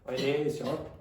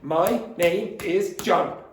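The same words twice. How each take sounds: First: Sounds at the ends of words are dropped. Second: Each word ends cleanly without extra sounds. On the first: The speaker calls it wrong. "They take off sounds at the end" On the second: The speaker calls it right.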